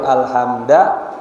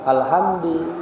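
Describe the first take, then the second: First: The word ends in the vowel a. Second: The word ends in the vowel i. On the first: "enggak boleh alhamda" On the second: "enggak boleh"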